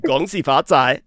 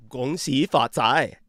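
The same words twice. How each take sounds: First: "Gong Xi Fa Cai" said loud and clear, falling on xi; Mandarin demo, clearly. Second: "Gong Xi Fa Cai" slowly, syllable by syllable, louder; slow Mandarin demo. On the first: Host repeating the greeting for his guest, loud demo. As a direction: belt out "Gong Xi Fa Cai" for her to copy. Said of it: "Say it again". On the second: Host slowing the greeting down so the guest can learn it. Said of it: "oh, say it again". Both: Shown as a demonstration.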